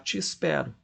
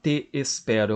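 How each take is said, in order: First: The two vowels merge into one, giving three syllables. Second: The two vowels stay separate, giving four syllables. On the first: The speaker calls it right. "eu vou falar te espero" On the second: The speaker calls it wrong. "eu não vou falar te espero"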